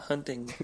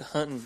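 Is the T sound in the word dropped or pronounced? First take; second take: pronounced; dropped. First: The T sound in the middle is pronounced. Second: The T sound in the middle is dropped. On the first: "and not hunting" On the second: "notice I said hunting"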